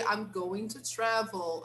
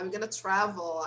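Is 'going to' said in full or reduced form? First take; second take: full; reduced. First: Going to is said in full. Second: Going to is reduced to gonna. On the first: "it's okay to say I'm going to travel" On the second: "in spoken English, going to is often pronounced as gonna"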